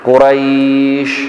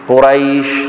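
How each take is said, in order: First: The long vowel is held for four counts. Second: The long vowel is held for two counts. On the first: "بمقدار أربع حركات" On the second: "بمقدار حركتين"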